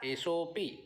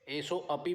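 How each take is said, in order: First: The 'a' vowel after 'o' is silent. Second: The 'a' vowel after 'o' is pronounced. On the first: The speaker calls it right. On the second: The speaker calls it wrong.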